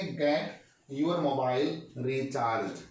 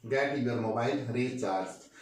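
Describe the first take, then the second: First: Stretched, deliberate teacher read; very slow model sentence. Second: Slow, slightly lower repeat of the sentence. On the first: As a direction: drag each word so learners catch it. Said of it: "बोलिए क्या बोलेंगे?". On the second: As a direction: repeat it slowly for the class. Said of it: "क्या बोलेंगे?". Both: Shown as a demonstration.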